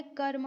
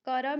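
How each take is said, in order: First: "कर्म" with r and m joined, kar-ma; correct form karma. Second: "करम" said as two syllables, ka-ram; wrong form karam. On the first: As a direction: run the r straight into the m in "कर्म". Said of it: "कर्म होता है". ("कर्म" में र् और म मिलाकर बोलें) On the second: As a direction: say "करम" with a vowel between r and m. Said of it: "करम नहीं होता है". ("करम" को क-रम, दो अक्षरों में बोलें) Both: Shown as a demonstration.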